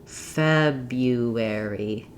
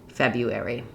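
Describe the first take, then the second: First: The word is said slowly and stretched out. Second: The word is said quickly at normal speed. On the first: "go slowly" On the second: "then speed back up"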